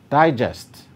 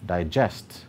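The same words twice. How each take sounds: First: The stress is on the first syllable. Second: The stress is on the second syllable. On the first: It is used as a noun. "nouns and adjectives are stressed on the first syllable" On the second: It is used as a verb. "verbs are stressed on the second syllable"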